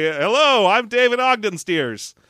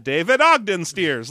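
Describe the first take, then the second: First: Slow, grand self-introduction; pompous name intro. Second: Slow, lightly hammed "David Ogden Stiers"; crappy doctor voice. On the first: Retold or imitated. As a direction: announce the name with mock gravity. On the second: Shown as a demonstration. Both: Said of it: "I say it like that".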